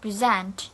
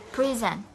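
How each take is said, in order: First: "Present" said preZENT, weight at the end; stress on second syllable. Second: "present" said PREZ-ent, weight up front; stress on first syllable. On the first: Teacher contrasting verb with noun, end-stressed "Present". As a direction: hit the ZENT in "Present". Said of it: "stress is also in the end". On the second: Teacher showing present as a noun, front-stressed "present". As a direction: hit PRE, let the end of "present" fade. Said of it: "the word present as a noun". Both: Shown as a demonstration.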